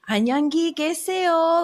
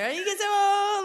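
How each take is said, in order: First: The phrase is said slowly and clearly. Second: The phrase is said quickly and blurred. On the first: The listener is expected to repeat it correctly. "she said it very like slow" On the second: The difference between the two goodbyes is hidden. "I just say it real fast"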